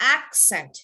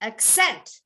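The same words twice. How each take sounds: First: The stress is on the first syllable. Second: The stress is on the second syllable. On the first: It is used as a noun. "you want to emphasize the first part of the word" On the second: It is used as a verb. "you have to emphasize the second part of the word"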